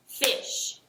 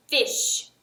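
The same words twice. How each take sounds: First: "fish" said softly as one beat with a clap; clapped word. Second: Said in the usual way. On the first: Shown as a demonstration. Teacher clapping the syllable of fish for students. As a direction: breathe "fish" out on a single clap. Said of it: "I'm gonna clap my hands when I say the word". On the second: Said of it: "I'm gonna say the word".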